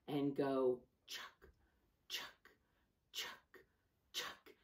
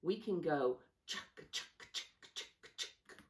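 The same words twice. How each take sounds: First: Slow, steady chuck chuck like a train; slow train chug for the kids to copy; train chugging sound. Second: Quick whispered chuck chuck; faster train chugging. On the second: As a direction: speed the chugging up, breathy. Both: Shown as a demonstration. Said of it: "if we want our train to go faster".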